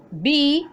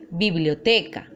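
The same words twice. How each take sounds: First: Biblioteca split into bi, blio, te, ca; syllable by syllable. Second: Said in the usual way. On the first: Shown as a demonstration. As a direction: say biblioteca in four separate syllables with pauses between. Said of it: "Tenemos cuatro sílabas". (biblioteca, sílaba por sílaba) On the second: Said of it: "Por ejemplo".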